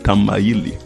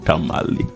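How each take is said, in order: First: The name is said as Tamayili. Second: The name is said as Tamale. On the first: This is the original local name. The speaker calls it right. "say I am going to Tamayili" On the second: This is the colonial corruption of the name. The speaker calls it wrong. "they mispronounced it, and that is how come that we have the name Tamale"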